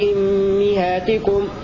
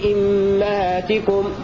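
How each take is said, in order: First: The vowel after the double m is i. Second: The vowel after the double m is a. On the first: "هكذا يقرأ حمزة كسر الهمزة والميم" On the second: "والكسائي يقرأ بكسر الهمزة وفتح الميم"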